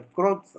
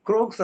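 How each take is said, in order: First: ക്രോക്സ് with a long o vowel; corrected pronunciation. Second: ക്രൂക്സ് with a long oo vowel; rejected pronunciation. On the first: Teacher correcting the scientist's name for students, ക്രോക്സ് with oh. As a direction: say ക്രോക്സ് with "oh" in place of "oo". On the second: Teacher showing students how not to say the name, ക്രൂക്സ് with oo. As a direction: say ക്രൂക്സ് with "oo", as in crook. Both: Shown as a demonstration. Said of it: "ക്രൂക്സ് എന്നല്ല അത് പറയുന്നത്".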